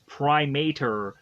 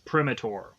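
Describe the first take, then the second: First: The name starts like the word primate. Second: The name does not start like primate. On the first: The speaker calls it wrong. "I probably at some point was to have called this monster Primator because I assumed that Primate" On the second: The speaker calls it right. "the way it's pronounced, it's Primator"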